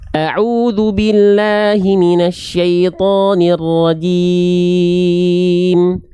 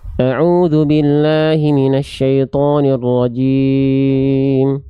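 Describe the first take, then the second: First: The vowels are fully and clearly articulated. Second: The vowels are blurred and unclearly articulated. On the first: The speaker calls it right. "ini bacaannya lebih tepat dibanding yang uh, sebelumnya" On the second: The speaker calls it wrong. "contoh pelafalan itmamul harokat yang tidak tersempurnakan, kurang maksimal"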